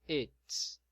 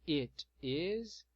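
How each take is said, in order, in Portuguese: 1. Palavras unidas em uma sílaba curta. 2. Duas palavras separadas, cada uma pronunciada por completo. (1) "Na forma contraída" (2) "na forma extensa"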